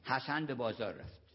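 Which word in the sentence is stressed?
none. No word is given special stress. It is a plain statement. "یه جمله معمولی"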